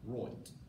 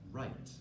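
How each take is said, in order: First: The vowel sounds like 'oy', an Australian accent. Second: The vowel sounds like 'eye', a standard accent.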